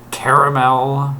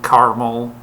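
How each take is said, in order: First: The word is said with three syllables. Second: The word is said with two syllables. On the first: The speaker calls it right. "You see that A there? That's a syllable" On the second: The speaker calls it wrong. "not caramel"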